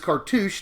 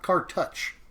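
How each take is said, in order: First: The last syllable rhymes with 'douche'. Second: The last syllable does not rhyme with 'douche'. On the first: The speaker calls it right. "it is Cartouche, Like cartoons, but with like cartoon douche" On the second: The speaker calls it wrong. "not Cartouche"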